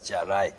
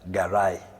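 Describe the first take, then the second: First: The word begins with a j sound. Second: The word begins with a hard g sound. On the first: "or they pronounce it as jarai" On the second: "Each of these convolutions is known as uh"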